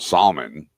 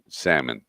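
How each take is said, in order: First: The L sound is clearly pronounced. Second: The L sound is not pronounced. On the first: The speaker calls it wrong. "It's not called salmon" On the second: The speaker calls it right. "The L is silent"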